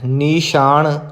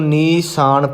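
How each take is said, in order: First: The middle consonant is sh. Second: The middle consonant is a plain s. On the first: The speaker calls it wrong. "ਨੀਸ਼ਾਨ ਨਹੀਂ ਕਰਨਾ" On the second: The speaker calls it right. "ਇਹਨੂੰ ਨੀਸਾਨ ਪੜ੍ਹਨਾ ਹੈ"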